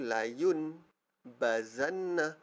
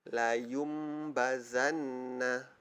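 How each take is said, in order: First: An n sound is heard before the b. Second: An m sound is heard before the b. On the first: "sepatutnya bacaan dia nun mati tu" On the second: "ikut hukum iqlab kita mesti tukar"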